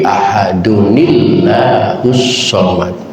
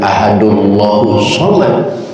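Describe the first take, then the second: First: The first word ends in 'nu', then 'ni' links on. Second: The first word runs straight into the next without n. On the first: The speaker calls it right. "tapi ahadunillahus somad" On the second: The speaker calls it wrong. "bukan ahadullahus somad"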